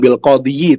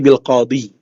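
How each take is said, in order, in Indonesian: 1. Kata ini diakhiri dengan bunyi 'yi' tambahan. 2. Kata ini diakhiri dengan bunyi 'i' biasa. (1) "bukan bil qadiyi" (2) "tapi bil qadi"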